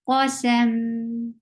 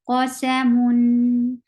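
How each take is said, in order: First: The word ends on a bare m sound. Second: The word ends with a nasal -un ending. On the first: The reader stops on this word. "You will give sukoon at the end" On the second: The reading continues without stopping. "Give tawassut because you are pronouncing tanween"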